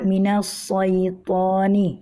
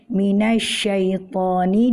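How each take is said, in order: First: The middle consonant is a heavy emphatic 's'. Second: The middle consonant is a 'sh' sound. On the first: The speaker calls it wrong. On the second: The speaker calls it right.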